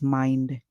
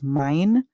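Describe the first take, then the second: First: The final d sound is clearly pronounced. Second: The final d sound is dropped. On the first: This is the British way of saying it. "or as mind. The British, they would make sure that they use their d sound" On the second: This is the American way of saying it. "this can be pronounced as mine"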